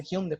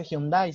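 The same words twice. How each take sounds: First: Hyundai said the Korean way, HYUN-de, soft final e; Hyundai with the ending squeezed to a short e; right Korean brand name. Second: Hyundai said the romanized way, hi-YUN-dai; the spelled-out Hyundai, xiundai with every letter sounded; wrong Korean brand name. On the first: Teacher gives students the correct Hyundai, quiet demo. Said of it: "sino se dice Hyundai". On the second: Teacher shows students the wrong Hyundai, careful demo. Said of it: "no se dice Hyundai". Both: Shown as a demonstration.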